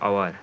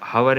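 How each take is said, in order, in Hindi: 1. शब्द की शुरुआत स्वर ध्वनि से होती है। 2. शब्द की शुरुआत 'h' की ध्वनि से होती है। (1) "ऑवर आ का उपयोग किया जाता है" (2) "हवर नहीं होता है"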